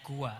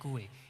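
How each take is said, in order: First: The word ends in an open 'a' vowel. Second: The word ends in an 'e'-like vowel. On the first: "bacaan fathah" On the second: "bacaan taklil"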